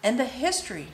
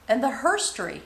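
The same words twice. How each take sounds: First: Said in the usual way. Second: Herstory, with its first syllable HER leaned on; stress on HER. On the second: Real, not acted. Tarot reader adding women's side of history, stress on HER in herstory.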